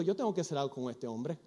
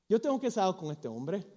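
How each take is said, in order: First: "tengo" said softly to himself with a rise; soft, musing first take; quiet musing. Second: Said in the usual way. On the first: Acted. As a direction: murmur it inward, thinking aloud.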